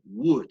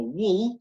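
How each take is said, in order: First: "Would" with no L, ending on a D; silent L. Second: "wool" with a clear L at the end; wrong L sound. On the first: Teacher shows would with silent L. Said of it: "sino como la D más bien". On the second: Teacher demos the wrong L in would. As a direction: say "wool" letting the L ring. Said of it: "que no debería sonar la L, no como wool". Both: Shown as a demonstration.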